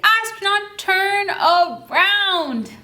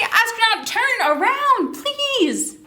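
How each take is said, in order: First: Long, drawn-out call across the distance; slow drawn-out call. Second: Sing-song call to the astronaut, pitched high; high, coaxing call with a polite please. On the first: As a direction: stretch around out very slowly. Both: Shown as a demonstration.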